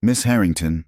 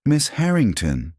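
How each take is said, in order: First: Said in the usual way. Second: High-pitched disbelieving repeat; stunned echo. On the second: A narrator's reading. Marcus learning who Elena is, stunned echo. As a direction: echo the name in shock, pitched up. Marcus echoes the name, eyes widened.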